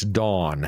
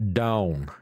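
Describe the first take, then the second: First: Dawn said the way the wife says it, with an open aw, like Don; wife's way of saying it. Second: Dawn said with an ow sound, like down; his own pronunciation. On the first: Retold or imitated. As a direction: say Dawn as dawn, rhyming with on. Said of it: "she says it's Dawn". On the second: Shown as a demonstration. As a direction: say Dawn the country way, rhyming with down. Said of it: "D A W N, Dawn".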